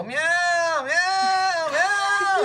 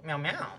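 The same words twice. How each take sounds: First: Very high, yowling cat meows; shrill-pitched mock cat distress; meowing protest. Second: Soft, tiny cat meow; snuggled-up meow. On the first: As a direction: imitate someone meowing to fend off an attack. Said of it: "she does meow". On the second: Retold or imitated. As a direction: imitate a cosy meow from under a blanket. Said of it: "all snuggled up in a blanket".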